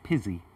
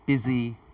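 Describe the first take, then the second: First: The word starts with a voiceless p sound. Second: The word starts with a voiced b sound. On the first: The speaker calls it wrong. "she said more like pizzy" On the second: The speaker calls it right. "she needs that, that, that stronger b sound"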